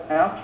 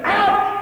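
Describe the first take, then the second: First: Low, soft, emotionless ouch; deadpan, quiet reaction to pain; unfeeling ouch. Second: High, sudden cry of pain; sharp high-pitched ouch; normal pained yelp. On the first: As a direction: say the pain word as if nothing hurt. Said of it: "You don't go, "Ouch". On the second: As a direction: yelp as if the finger just got hit. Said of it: "that's the normal thing". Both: Shown as a demonstration.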